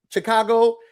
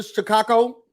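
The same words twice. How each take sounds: First: Said in the usual way. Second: "Chicago" with the last syllable toughened toward "ko"; mobster-style pronunciation. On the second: Retold or imitated. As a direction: imitate her odd "Chi-kah-ko" for "Chicago". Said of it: "trying to say it like a mobster".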